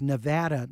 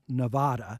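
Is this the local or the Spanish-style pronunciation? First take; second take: local; Spanish. First: It is said the local, non-Spanish way. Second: It is said the Spanish-style way. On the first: The speaker calls it right. "residents pronounce it different from those who speak Spanish" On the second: The speaker calls it wrong. "not Nevada"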